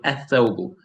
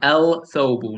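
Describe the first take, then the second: First: The L is dropped and the TH is doubled. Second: The article is said with a clear L sound. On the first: The speaker calls it right. "You say athobu. So you jump from the first letter to the third" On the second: The speaker calls it wrong. "I am not saying el thobu. No. Do not say it like that"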